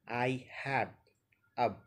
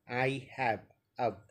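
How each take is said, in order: Both takes have the same delivery.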